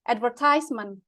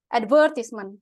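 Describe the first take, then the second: First: The stress falls on the third syllable. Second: The stress falls on the second syllable. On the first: This is the American pronunciation. "kalau Americannya itu advertisement, tapi lebih ke stressingnya tuh di sini ... bagian tehnya" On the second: This is the British pronunciation. "British nyebutinnya tuh advertisement, ... stressnya tuh di vernya"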